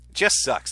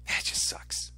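First: Said in the usual way. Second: Breathy whisper, almost no voice. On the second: Real, not acted. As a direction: let it slip out as a whisper. Whispered then repeated aloud.

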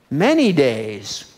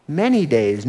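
First: Slow, drawn-out emphasis. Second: Said in the usual way. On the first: Acted. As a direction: stretch out "Many days" slowly, weighing each word. Dwelling on the long ordeal.

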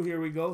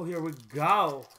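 First: Said in the usual way. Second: "go" slowly drawn out with a swoop. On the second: Real, not acted. Host hyping pack number two, GO drawn out. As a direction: stretch GO long, gliding up then down. Playful repeat, stretching out go.

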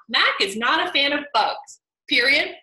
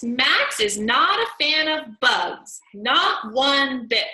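First: Full stop after bugs; stopping at the comma. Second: Slow, louder reading with a comma pause; emphatic reading. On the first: Teacher showing the sentence without its ending. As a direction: end the sentence flatly at the comma. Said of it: "stopped that sentence at the comma". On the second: Teacher rereading the sentence for the class. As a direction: read it with weight. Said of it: "Could the author have stopped that sentence". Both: Shown as a demonstration.

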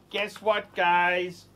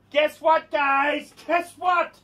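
First: Soft, low-key repeat; understated soft hook; toned-down teaser. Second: High, excited announcement; hyped-up high-pitched hook; excited teaser. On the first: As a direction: drop it down, quiet and confiding. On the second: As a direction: tease the news in a raised, eager pitch. Hyped channel intro, teasing news. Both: Real, not acted.

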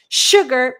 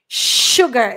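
First: "Sugar" loud, with a clear sh at the start. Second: "Sugar" said loud, starting with a clear sh. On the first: Teacher repeats "Sugar" with its sh for the students. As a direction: stress the sh in "Sugar". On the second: Teacher shows students the sh in "Sugar", loud and clear. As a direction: punch "Sugar" with a sh sound. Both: Shown as a demonstration. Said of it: "Esse S tem um som de X".

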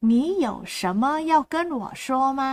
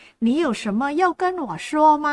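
First: Said in the usual way. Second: 你有什么要跟我说吗 said slowly, each syllable clear, stress on 要; slow Mandarin model. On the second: Shown as a demonstration. Teacher models Mandarin for Thai learners, slowly with 要 stressed. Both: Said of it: "ตรงกับภาษาจีนกลางนะคะว่า".

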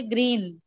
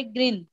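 First: ग्रीन with a stretched double-e, the colour; long ee. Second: ग्रीन said as "grin", with a short vowel. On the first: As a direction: draw out the vowel in ग्रीन, like "greeen". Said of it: "वो colour को हम कैसे पढ़ते". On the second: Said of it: "इसको हम कैसे पढ़ रहे". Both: Shown as a demonstration.

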